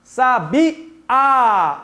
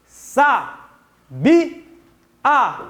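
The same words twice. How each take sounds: First: "Sabiá" with the last A drawn out and stressed; stress on final A. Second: "Sa, bi, a" as three separate syllables; syllable division. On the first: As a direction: lean hard and long on the final á of "Sabiá". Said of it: "pronuncia com mais tonicidade". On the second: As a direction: pause after each syllable of "Sa, bi, a". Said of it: "vamos fazer a divisão". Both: Shown as a demonstration.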